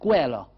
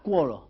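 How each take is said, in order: First: It begins with 'ke' and ends in 'a'. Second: It begins with 'kwo' and ends in 'a'. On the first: "à Marseille" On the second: "on peut relever la cuola pour la colline"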